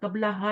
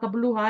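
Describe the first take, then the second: First: The word ends in an 'a' vowel before 'ha'. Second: The word ends in a 'u' vowel before 'ha'. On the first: The speaker calls it right. "कबला हा ही पढ़ना है" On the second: The speaker calls it wrong. "कबलू हा नहीं पढ़ना"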